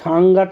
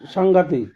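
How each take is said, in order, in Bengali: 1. শব্দটি ছোট করে কাটা 'te' ধ্বনি দিয়ে শেষ হয়। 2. শব্দটি পূর্ণ 'tik' ধ্বনি দিয়ে শেষ হয়। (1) "সাংঘাতে না"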